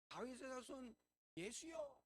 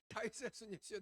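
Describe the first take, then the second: First: The cry is said at normal loudness. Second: The cry is said much louder.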